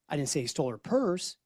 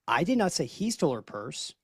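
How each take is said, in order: First: The word "purse" carries the main stress. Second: The word "he" carries the main stress. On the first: Something else was stolen. "He stole her dog instead" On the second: Someone else stole the purse. "The lady stole the purse"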